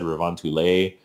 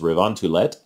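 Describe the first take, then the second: First: The name is said with a French-style pronunciation. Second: The name is said with a Finnish-style pronunciation. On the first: The speaker calls it wrong. "I would have said Reventule because it looks French to me" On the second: The speaker calls it right. "if I'm pronouncing this right"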